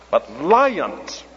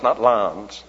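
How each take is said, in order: First: The word is said clearly with two syllables. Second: The word is squeezed into one syllable. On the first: The speaker calls it right. "but lions. That's for the benefit of any Yankees in the audience" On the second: The speaker calls it wrong.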